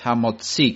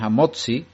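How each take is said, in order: First: The stress falls on the final syllable. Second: The stress falls before the final syllable. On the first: The speaker calls it right. "la forma correcta hebrea, sino es hamotzi, con la, el acento en la i" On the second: The speaker calls it wrong. "muchos se equivocan y dicen hamotzi, y no es correcto, es una forma americana de decir"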